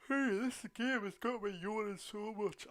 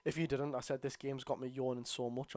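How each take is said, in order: First: Said slowly through a big yawn. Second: Said in the usual way. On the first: Real, not acted. Streamer telling viewers the game bores him, yawning through it. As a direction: stretch the words out mid-yawn. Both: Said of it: "I hope you could make out what I just said there".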